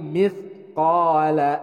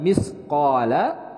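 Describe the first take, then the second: First: The consonant after mi is a th sound. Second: The consonant after mi is an s sound. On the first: The speaker calls it right. "tapi mithqala" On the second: The speaker calls it wrong. "bukan misqala"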